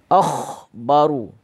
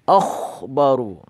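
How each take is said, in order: The two takes are said the same way.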